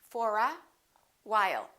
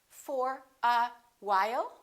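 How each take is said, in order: No difference in how they are said.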